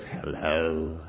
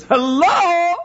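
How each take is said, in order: First: Low, soft ghostly hello; eerie answering-machine voice. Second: High, loud, bright hello; snatch up the phone and sing out hello; eager phone hello. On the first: Answering machine greets the caller in a low, eerie voice. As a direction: sound like a spirit on a recorded line. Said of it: "this out-of-body person spirit that just says". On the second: Daughter dashes to the phone, high eager hello. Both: Retold or imitated.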